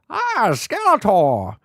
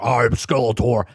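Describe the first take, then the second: First: It is said in a high, classic Skeletor voice. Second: It is said in a very deep voice.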